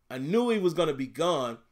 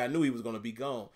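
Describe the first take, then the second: First: "gone" with an open ah vowel, like "gahn"; corrected pronunciation. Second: Country accent, "gone" said like "goan". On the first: Shown as a demonstration. Streamer redoing his line after a country slip, "gone" corrected to an open vowel. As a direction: restate it with "gone" rhyming with "on". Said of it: "Y'all heard me say gone". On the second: Real, not acted. Streamer talking draft picks, country accent slipping out on "gone". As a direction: let the country slip out on "gone", rhyming with "bone". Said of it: "there's a country accent coming out".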